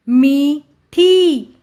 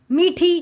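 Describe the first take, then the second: First: मी and ठी slow and separate; sounding out. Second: Said in the usual way. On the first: Shown as a demonstration. Teacher reading to children, syllable by syllable. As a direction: stretch both halves: मी... ठी. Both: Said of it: "उच्चारण करके पढ़ लिया".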